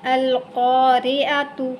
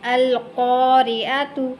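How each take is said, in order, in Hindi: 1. शब्द एक पूरे -tu अक्षर से खत्म होता है। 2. शब्द एक पूरे -tu अक्षर से खत्म होता है।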